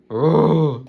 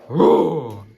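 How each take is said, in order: First: Loud playful dinosaur roar. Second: Loud shouted dinosaur roar. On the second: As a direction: give a big monster roar. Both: Shown as a demonstration. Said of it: "Yeah, do it nicely then".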